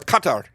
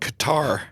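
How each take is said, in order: First: Qatar is said with the local pronunciation. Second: Qatar is said with a common English pronunciation.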